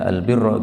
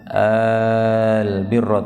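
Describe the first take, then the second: First: The first vowel is short and plain. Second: The first vowel is drawn out long. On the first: "boleh saja dibaca al birra gitu aja" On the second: "Ini A-nya panjang karena pertanyaannya"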